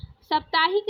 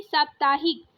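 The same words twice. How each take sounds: First: साप्ताहिक with a short first a; wrong short first vowel. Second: साप्ताहिक with a long saa; correct long first vowel. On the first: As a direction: say साप्ताहिक as "sup-taa-hik". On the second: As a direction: say साप्ताहिक as "saap-taa-hik". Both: Shown as a demonstration. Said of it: "साप्ताहिक नहीं".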